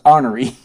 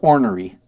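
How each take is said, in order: First: It is said with a Southern US pronunciation. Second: It is said with a standard American pronunciation. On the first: The speaker calls it wrong. "if you're from the South, it's ornery" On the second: The speaker calls it right. "The word is ornery"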